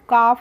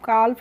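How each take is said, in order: First: The word is said with a silent L. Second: The word is said with an audible L. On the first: The speaker calls it right. "C एल F काफ होता है" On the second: The speaker calls it wrong. "उसको हम काल्फ नहीं पढ़ते हैं"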